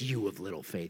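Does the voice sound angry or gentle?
angry. It is said harshly, like an angry rebuke. The speaker is scolding out of anger. The speaker calls it wrong. "you'll hear it like this"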